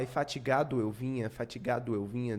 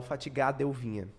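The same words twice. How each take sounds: First: Fatigado eu vinha keeping the final o of fatigado; careful full reading; full vowels. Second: Fatigado eu vinha as fatigadeu, the o dropped; natural run-together reading; elided o. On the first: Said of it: "Em vez de falar". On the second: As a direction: swallow the final o into eu. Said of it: "eu falo". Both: Shown as a demonstration.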